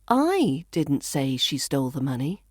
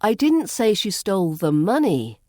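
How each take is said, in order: First: The stress falls on the word I. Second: The stress falls on the word money. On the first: Someone else said it. "So I could be saying somebody else did" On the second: Something other than money was stolen. "Perhaps she stole something else"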